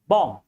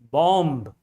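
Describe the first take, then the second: First: The final B is silent. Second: The final B is pronounced. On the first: The speaker calls it right. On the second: The speaker calls it wrong. "not bomb"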